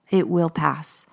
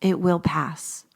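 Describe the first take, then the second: First: Said in the usual way. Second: Calm slow reassurance. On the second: Real, not acted. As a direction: say "it will pass" slowly like a promise. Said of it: "because when you are not fighting against it".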